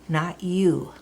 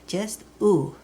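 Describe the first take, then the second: First: The vowel begins with a y glide. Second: A plain oo vowel with no y glide. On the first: The speaker calls it wrong. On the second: The speaker calls it right. "it's always u, just u"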